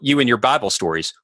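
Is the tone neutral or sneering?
neutral. It is said in a plain, neutral tone. It is a simple remark about the stories. "It's one thing for me to say"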